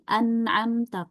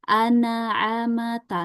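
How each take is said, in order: First: The ain flows straight into the m, no vowel. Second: The ain bounces, adding an extra a vowel. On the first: The speaker calls it right. "misalnya tadi an'amta" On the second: The speaker calls it wrong. "kalau dipantul jadi an'amata"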